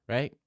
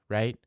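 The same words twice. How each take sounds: Both takes have the same delivery.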